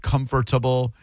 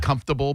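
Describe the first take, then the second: First: The word is said in full, syllable by syllable. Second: The word is said in a shortened, reduced form. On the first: This is how it is written. "but it's comfortable" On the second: This is how people usually say it. "We say comfortable"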